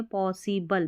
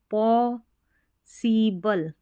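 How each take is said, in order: First: Said in the usual way. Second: "possible" slowly as paw, see, bul; syllable by syllable. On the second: Shown as a demonstration. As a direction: break "possible" into drawn-out parts. Teacher sounds out the new word. ("Possible" को धीरे-धीरे तोड़कर)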